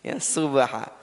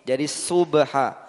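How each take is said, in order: First: Subha said with a plain thin s like sin; the wrong thin s in subha. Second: Subha with a heavy emphatic s, slow; thick shad subha. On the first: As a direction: mistaken sin sound. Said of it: "mengira ini sin". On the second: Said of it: "Jangan sampai sama. Sod dan sin". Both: Shown as a demonstration.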